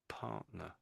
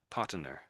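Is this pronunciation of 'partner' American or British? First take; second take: British; American. First: It is said with a British accent. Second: It is said with an American accent. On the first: The speaker calls it right. "in England we say partner" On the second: The speaker calls it wrong. "it sounds a bit American"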